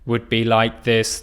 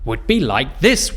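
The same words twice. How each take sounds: First: The pitch stays flat with no movement. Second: The pitch moves strongly up and down. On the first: "a flat intonation would be like this. There's no movement up or down" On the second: "a strong intonation would be like this, where we go up and down"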